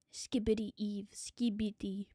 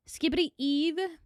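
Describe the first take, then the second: First: Breathy whispered name, low and soft. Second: Said in the usual way. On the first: Pretend. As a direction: whisper it like a secret.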